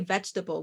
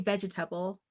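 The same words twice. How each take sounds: First: It is said in an American accent. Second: It is said in a Caribbean accent.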